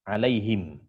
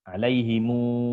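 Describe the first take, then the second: First: The word ends on a closed m sound. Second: The word ends with an added u vowel. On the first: "dengan sukun mim jamak" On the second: "dengan silah mim jamak"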